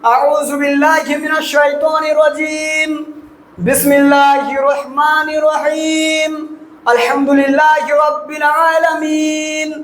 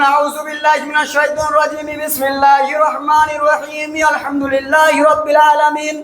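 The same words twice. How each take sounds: First: Each phrase is separated by a pause. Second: All phrases run together without pauses.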